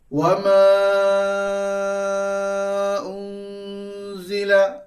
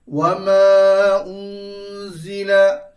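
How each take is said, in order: First: The long vowel is held for four counts. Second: The long vowel is held for two counts. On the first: "Yang kedua tawassut, empat harakat" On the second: "Yang pertama qasd, dua harakat"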